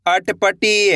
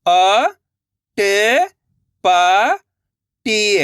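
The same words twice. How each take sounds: First: Said in the usual way. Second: अटपटी stretched syllable by syllable; very slow sounding out. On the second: Shown as a demonstration. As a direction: spell अटपटी out very slowly. (बहुत धीरे खींचकर अटपटी)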